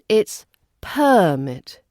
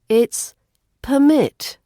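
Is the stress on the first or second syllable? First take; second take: first; second. First: The stress is on the first syllable. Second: The stress is on the second syllable. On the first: It is used as a noun. "As a noun" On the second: It is used as a verb. "As a verb"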